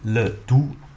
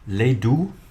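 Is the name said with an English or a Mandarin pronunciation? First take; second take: Mandarin; English. First: The name is said with a Mandarin pronunciation. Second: The name is said with an English pronunciation.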